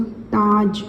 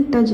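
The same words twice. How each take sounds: First: ताज with a long drawn आ; teacher giving the right ताज; correct long vowel. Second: तज with a short clipped a, as the mistake; wrong short form. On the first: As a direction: stretch the आ in ताज. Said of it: "तज नहीं, इसको ताज". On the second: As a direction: say तज short, the way not to read it. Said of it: "इसको ऐसे नहीं पढ़ेंगे". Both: Shown as a demonstration.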